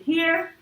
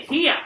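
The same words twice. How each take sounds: First: Said in the usual way. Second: Put-on Southern accent. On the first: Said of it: "instead of saying". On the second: A narrator's reading. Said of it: "When she got worried".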